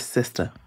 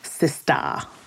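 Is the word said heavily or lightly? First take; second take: lightly; heavily. First: The word is said lightly and casually. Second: The word is said with heavy, exaggerated emphasis. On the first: The speaker is just saying the word naturally. The speaker calls it right. "it's not that heavy, just saying Sista" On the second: The speaker is trying too hard to sound hip. The speaker calls it wrong. "trying to be very intentional about saying it in a hip and correct way"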